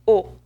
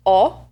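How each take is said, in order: First: "O" tight and rounded, like "oh" without glide; closed O. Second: "O" wide open, like "aw". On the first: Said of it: "or closed". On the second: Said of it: "The vowel O can be open". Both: Shown as a demonstration.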